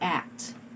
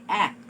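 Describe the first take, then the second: First: The final t sound is clearly pronounced. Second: The final t sound is dropped. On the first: The speaker calls it right. "but you have to say act" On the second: The speaker calls it wrong. "You do not say act"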